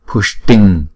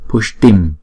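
First: The word ends with a throat ng sound. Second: The word ends with a closed-lip m sound. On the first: The word comes before a k sound. "Chuyển Anuswara này thành chữ ngờ" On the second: The word stands alone. "Chữ này đứng một mình chúng ta đọc là Pushtim"

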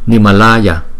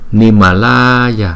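First: The long A vowel is held only moderately. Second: The long A vowel is stretched out very long. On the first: The speaker calls it right. "chỉ nhanh gấp đôi cái chữ A bình thường thôi, chứ không có kéo dài dữ" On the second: The speaker calls it wrong. "chúng ta không cần đọc kéo dài như Nimalaya"

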